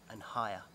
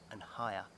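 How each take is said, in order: Both takes have the same delivery.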